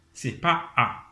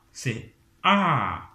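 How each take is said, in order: First: "A" without the fall; wrong tone. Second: "A" rising then falling; right falling tone. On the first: Teacher showing students the wrong falling A. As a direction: say "A" the wrong way, no drop. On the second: Teacher giving students the correct falling A. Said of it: "un ton qui monte et puis un ton qui descend". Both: Shown as a demonstration.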